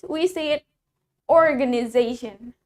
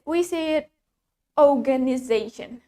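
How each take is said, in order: First: It is said in an American accent. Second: It is said in a British accent. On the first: "While in American English" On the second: "In British English"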